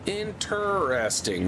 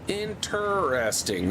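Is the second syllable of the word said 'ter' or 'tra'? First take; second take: ter; ter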